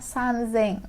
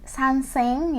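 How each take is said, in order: First: The second part starts with a z sound. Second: The second part starts with an s sound. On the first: The speaker calls it right. "tapi jadinya sanzeng ya" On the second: The speaker calls it wrong. "Bukan sanseng ya penyebutannya"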